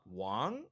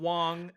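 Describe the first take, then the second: First: The pitch starts middle and rises upward. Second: The pitch stays level and high throughout. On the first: "tone two goes middle up" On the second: "tone number one would be"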